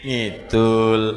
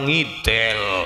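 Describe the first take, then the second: First: The last syllable has a u vowel. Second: The last syllable has an e vowel. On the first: The speaker calls it right. "Ya tetep ngid ngidul" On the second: The speaker calls it wrong. "ning ya ora ngidel"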